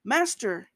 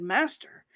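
First: Sinking man's cry; desperate cry. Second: A bold, confident "Master," with a rising end; daring address to Jesus; bold call. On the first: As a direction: cry out as you start to sink. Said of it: "And he cried". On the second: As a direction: call out with sudden nerve. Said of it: "suddenly was bold and said". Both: A narrator's reading.

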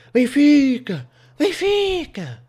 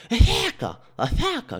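First: High, loud drawn-out holler; high-pitched yell with a long stretched vowel; woman bellowing. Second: High toothless yell, consonants lost; mushy, gummy shriek of a toothless woman; toothless woman bellowing. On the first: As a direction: bellow the name across the street. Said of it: "uma senhora a, a, a berrar assim". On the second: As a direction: holler it with no teeth in your mouth. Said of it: "Assim, sem dentes". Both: Retold or imitated.

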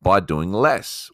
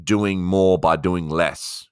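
First: "by doing less" drawn out slowly; slow, weighty stress on "less"; slow stressed title. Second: "doing more by doing less" drawn out slowly; slow weight on "more" and "less"; slow stressed title. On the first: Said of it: "how to do more". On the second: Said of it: "what does values have anything to do with". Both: Shown as a demonstration.

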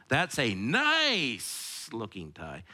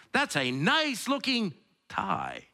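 First: Slow, "nice" stretched long; stress on nice. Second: Slow, "nice" lifted and stretched; stress on nice. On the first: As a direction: drag out "nice" in "That's a nice looking tie". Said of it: "emphasis on one word". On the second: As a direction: sing "nice" up and long in "That's a nice looking tie". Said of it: "I don't know what that means". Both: Shown as a demonstration.

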